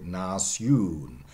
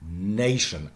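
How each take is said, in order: First: NATION slowly as "nas-YOON"; Middle English pronunciation. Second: NATION as "NAY-shun"; modern pronunciation. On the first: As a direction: stretch nation, open a, long "oo". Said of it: "must have been in Middle English". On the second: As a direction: stress the start of Nation, with "sh". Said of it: "accent shift to the first syllable". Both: Shown as a demonstration.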